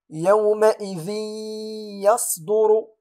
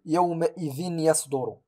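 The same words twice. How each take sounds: First: يومئذ يصدر with tanween merged into ya, slow, higher and louder; nasalized merge. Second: يومئذ يصدر with the nun of tanween pronounced, yawma'idhin yasdur; clear tanween. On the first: Teacher reciting the correct merge, slow and louder. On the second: Teacher showing the wrong reading, plain. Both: Shown as a demonstration. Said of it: "ولا أقول".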